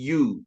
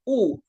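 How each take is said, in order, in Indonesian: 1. Diawali bunyi konsonan y. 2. Diawali bunyi vokal biasa. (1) "tapi U. Kalau U berarti sama dengan konsonan" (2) "bukan U"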